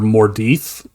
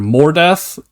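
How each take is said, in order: First: The last syllable sounds like dith, not death. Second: The last syllable sounds like the word death. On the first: "I prefer Mordith" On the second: "it gets pronounced two different ways"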